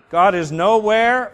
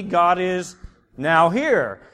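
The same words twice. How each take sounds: First: Nowhere said as one word, louder and slow; God is nowhere, one word; read as nowhere. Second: Now here split into two words, slow; God is now here, a clear break between now and here; read as now here. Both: Shown as a demonstration. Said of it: "or it could be God is now here".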